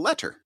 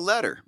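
First: The middle consonant is a crisp, hard T. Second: The middle consonant is a soft D sound. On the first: It makes the spelling clear to listeners. "if I'm saying it on a podcast and somebody has to get to the URL" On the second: It is casual everyday speech. "To you personally"

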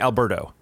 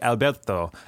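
First: The name is said with an English pronunciation. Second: The name is said with a Spanish pronunciation. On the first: "no, just call me Alberto" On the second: "I would try to learn how to say it"

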